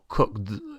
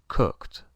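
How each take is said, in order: First: The ending sounds like a D. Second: The ending sounds like a T. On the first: The speaker calls it wrong. "resulta un poco difícil pronunciar una D después de la K. Sería como cooked" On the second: The speaker calls it right. "Suena más como una T que una D"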